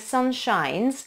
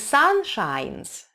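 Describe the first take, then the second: First: The vowel in 'sun' is a short 'uh'. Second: The vowel in 'sun' is an open Russian 'ah'. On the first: The speaker calls it right. "это вот эта крышечка, да, but" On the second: The speaker calls it wrong. "не sun shines, это не русский «а»"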